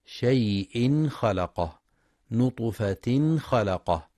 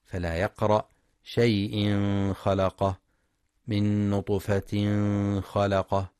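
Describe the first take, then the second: First: شيء خلقه with a clear ن before خ, slowly; clear izhar. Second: شيء خلقه with ن hidden and nasalized into خ; wrong ikhfa. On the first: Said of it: "للإظهار الحلقي". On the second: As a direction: hide the ن in نطفة خلقه, the wrong way. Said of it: "بالإخفاء". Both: Shown as a demonstration.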